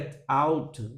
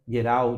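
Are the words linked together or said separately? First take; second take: Separate; Linked. First: The two words are said separately. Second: The two words are joined together.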